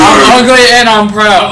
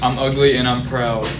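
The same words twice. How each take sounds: First: The line is said loudly. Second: The line is said quietly.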